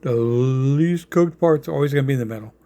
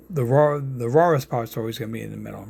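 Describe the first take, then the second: First: Long, deliberate "least", correcting himself; stress on "least". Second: New York accent on "raw" and "rawest"; real New York accent on "rawest". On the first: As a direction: stretch out "least" before finishing the sentence. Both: Real, not acted. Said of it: "that's my New York accent".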